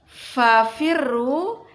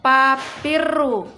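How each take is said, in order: First: The word begins with an f sound. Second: The word begins with a p sound. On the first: The speaker calls it right. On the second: The speaker calls it wrong.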